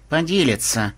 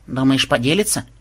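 First: Dark, certain statement; grim promise. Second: Sceptical rising query; doubtful question. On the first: Reporter vouches for the programmer, grim. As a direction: promise it like a threat. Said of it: "мрачно пообещала Мелиса". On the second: Granddaughter questions the reporter's promise, doubtful. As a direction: ask it unconvinced. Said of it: "с сомнением спросила внучка". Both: A narrator's reading.

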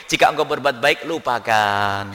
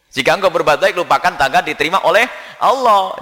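First: Low, slow, solemn quoted maxim; slow reverent recitation of a maxim; quoting Luqman Hakim. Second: Said in the usual way. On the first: Retold or imitated. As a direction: intone the sage's words slowly, lower. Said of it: "dikatakan oleh Luqman Hakim". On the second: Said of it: "repeats the maxim".

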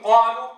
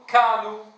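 First: قالوا with a deep, heavy q; proper deep ق. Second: قالوا said as kaalu, with a k; ق near ك. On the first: Teacher shows the correct قالوا, deep emphatic q. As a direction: start قالوا far back on a full ق. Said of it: "بدل أن يقول". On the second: Teacher shows the error, قالوا turned into kaalu. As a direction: bring the ق of قالوا forward to a k. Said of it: "نطقها قريبة من الكاف". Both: Shown as a demonstration.

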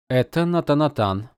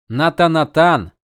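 First: Said in the usual way. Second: Louder, slower shocked repeat; stunned exclamation. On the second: Acted. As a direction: blurt it out in disbelief. Dalinar exclaims. (потрясённо, громко воскликнув)

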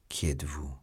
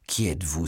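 First: Low, soft, stunned question; petrified. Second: Mild outcry of awe; exclaimed question. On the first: Petrified Felton first questions Milady, stunned and hushed. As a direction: ask it under the breath, as if frozen. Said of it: "comme pétrifié". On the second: Felton, hands joined, asks Milady, exclaiming. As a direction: call the question out, with some restraint. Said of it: "s'écria-t-il en joignant les mains". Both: A narrator's reading.

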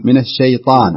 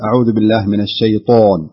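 First: الشيطان with a wide open "ā" after ط, lips unrounded; open-mouthed vowel. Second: الشيطان with lips pressed, the alif after ط rounded toward "o"; wrong rounded vowel. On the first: Teacher modelling correction for student, open الشيطان. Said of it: "افتح فمك". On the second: Teacher showing student the mistake, rounded الشيطان. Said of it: "لا تكز الشفة عند حرف الطاء". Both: Shown as a demonstration.

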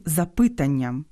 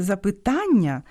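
First: «запитанням» stressed on the second syllable, ПИ; wrong stress. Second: «запитання» stressed on ТА; correct stress. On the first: Host mimicking a school mistake, wrong stress on ПИ. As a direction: hit ПИ in «запитанням». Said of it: "незрозумілим". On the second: Host naming the ordinary word properly, usual stress on ТА. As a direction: land on ТА in «запитання». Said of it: "звичайнісіньке запитання стає". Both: Shown as a demonstration.

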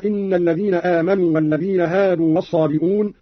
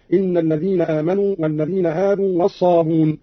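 First: Said in the usual way. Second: الصابون run smoothly from b into long u; dropped hamza. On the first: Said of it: "قرأه بحذف الهمز". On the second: Shown as a demonstration. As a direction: say الصابون as "as-sabun", no glottal catch. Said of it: "بحذف الهمز تخفيفا هكذا".

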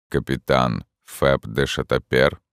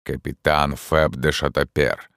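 First: Low, slow hollow question; ghostly voice. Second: Name him like a judge; ghostly voice. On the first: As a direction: ask from beyond the grave. Ghost addresses the captain. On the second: Ghost before accusation. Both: A narrator's reading. (голос призрака)

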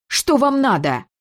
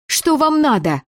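First: Higher, sharper snarled demand; snarling demand. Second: Put-on a girl whose voice is shredded demands answers, croaking it; hoarse croak. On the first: The girl snarls at her father, demanding what he wants. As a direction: throw it at him with fury. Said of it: "рыкнула". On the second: Хриплым сорванным голосом. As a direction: rasp it out high and hoarse, voice torn from screaming. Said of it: "прохрипела". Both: A narrator's reading.

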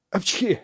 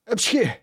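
First: Sneeze. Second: Sharp, high-pitched sneeze; big high sneeze. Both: A narrator's reading. Half-drowned boy sneezes out water.

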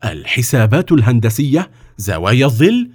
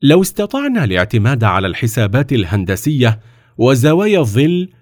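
First: Puzzled echo with rising questions; astonished. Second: Composed, even explanation; calm. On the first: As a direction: repeat the terms in mild disbelief. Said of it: "وقال السلطان في دهشة". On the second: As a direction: state it calmly as a reasoned proposal. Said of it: "وقال في هدوء". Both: A narrator's reading.

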